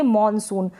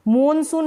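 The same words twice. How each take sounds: First: मॉनसून with a rounded "aw"; English मॉनसून. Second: मॉनसून mispronounced as "moon-soon"; oo in मॉनसून's first syllable. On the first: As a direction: say मॉनसून as "mawn-soon". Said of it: "English में हम पढ़ेंगे". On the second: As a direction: make both vowels of मॉनसून oo. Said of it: "मॉनसून नहीं पढ़ेंगे". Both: Shown as a demonstration.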